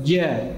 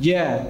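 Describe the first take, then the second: The two takes are said the same way.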